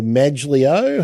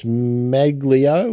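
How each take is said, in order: First: Maglio said with a soft G. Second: Maglio said with a hard G. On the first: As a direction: say Maglio as "MADGE-lee-oh". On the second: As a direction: say Maglio as "MAG-lee-oh". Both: Real, not acted. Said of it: "however that's pronounced".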